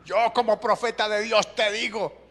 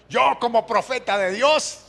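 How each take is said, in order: First: Higher, pompous prophet voice; mocking self-appointed prophet. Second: High, loud, pompous prophet voice; mocking self-appointed prophet. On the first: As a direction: intone it like a self-important prophet. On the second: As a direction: puff up like a self-proclaimed prophet. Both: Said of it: "¿ha escuchado alguna vez esa?".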